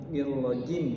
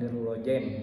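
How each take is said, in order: First: The last vowel is pronounced i. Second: The last vowel is pronounced e. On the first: The speaker calls it right. "dibaca i" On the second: The speaker calls it wrong. "bukan nirrojem"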